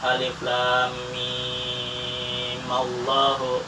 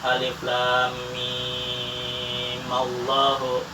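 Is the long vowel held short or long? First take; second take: long; long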